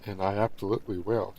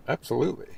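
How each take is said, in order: First: Said in the usual way. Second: Emphatic absolutely. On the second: Shown as a demonstration. Streamer to viewers, a cheeky emphatic Absolutely. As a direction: land Absolutely with a playful rising flourish. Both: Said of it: "I really had to say it that way".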